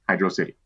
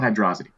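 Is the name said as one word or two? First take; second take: two words; one word. First: It is said as two words, 'hydro city'. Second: It is run together like 'hydrosity'. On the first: The speaker calls it right. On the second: The speaker calls it wrong. "it's not pronounced Hydrosity"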